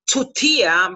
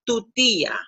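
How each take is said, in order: First: The T is strong, with a puff of air. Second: The T is soft, without a puff of air. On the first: The speaker calls it wrong. "Do not pronounce" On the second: The speaker calls it right. "You have to soften that T"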